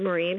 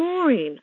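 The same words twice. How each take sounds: First: The name is said in an American accent. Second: The name is said in a British accent. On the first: This is how the owner of the name says it. "introducing myself and saying" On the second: This is how people abroad say the name. "Maureen is pronounced totally differently over here"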